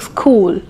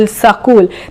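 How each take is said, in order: First: No extra vowel is added anywhere. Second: An extra vowel splits the s and k. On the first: The speaker calls it right. "they are saying school" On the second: The speaker calls it wrong. "They are not saying ... sakul"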